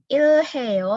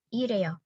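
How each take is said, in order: First: The h sound is clearly pronounced. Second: The h sound is dropped, almost silent. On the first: The speaker calls it wrong. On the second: The speaker calls it right.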